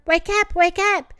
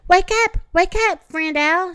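First: Put-on high, bouncy baby-bunny echo; little ones chiming in. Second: High, loud excited yell; excited shout. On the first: Thumper's babies echo their father, high and bouncy. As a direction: chirp it like tiny bunnies. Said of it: "croused his new babies". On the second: Acted. Thumper shouts up at sleeping Owl, high excited yell. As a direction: shout him awake with glee. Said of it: "shouted Thumper".

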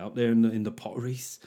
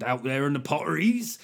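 First: Said in the usual way. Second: Lightly done West Country accent, Potteries rolled. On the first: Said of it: "something you wanna say in a West Country accent". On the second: Shown as a demonstration. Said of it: "say in a West Country accent".

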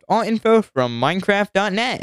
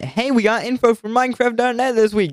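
First: Said in the usual way. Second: Higher, cheering the news; mock excitement. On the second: Shown as a demonstration. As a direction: announce it like a happy surprise. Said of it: "Good job, Mojang".

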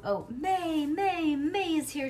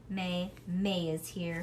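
First: High, loud, gleeful calling of the name; a girl's happy high yell; excited shout. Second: Said in the usual way. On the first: A narrator's reading. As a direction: shout it out the window, thrilled. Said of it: "she shouted through the window opening". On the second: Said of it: "she shouted".

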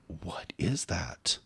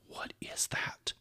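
First: Slow quiet question. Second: Hushed, slow whisper. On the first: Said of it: "So I'm like". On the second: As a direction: breathe the question out under your breath. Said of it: "And I'm like". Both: Retold or imitated.

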